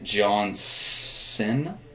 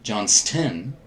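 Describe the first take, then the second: First: The name is said without a t sound. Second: The name is said with a t sound. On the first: The speaker calls it wrong. "I'm saying that just to irritate Tom" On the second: The speaker calls it right. "A ton of people mispronounce that"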